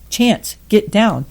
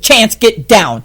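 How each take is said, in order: First: The command sounds soft and ineffective. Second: The command sounds firm and authoritative.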